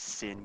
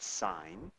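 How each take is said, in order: First: The vowel is short, rhyming with 'pin'. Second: The vowel is long, rhyming with 'line'. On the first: The speaker calls it wrong. "it looks like it says sin" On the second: The speaker calls it right. "We pronounce it sine"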